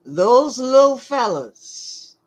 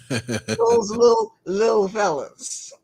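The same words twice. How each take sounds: First: Said in the usual way. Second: Little said as lil, laughing; lil pronunciation. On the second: Shown as a demonstration.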